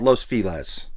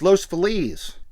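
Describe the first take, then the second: First: Feliz sounds unlike the Feliz in Feliz Navidad. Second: Feliz sounds like the Feliz in Feliz Navidad. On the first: The speaker calls it wrong. "That's not how you say it" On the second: The speaker calls it right. "listen to the song Feliz Navidad. Same word"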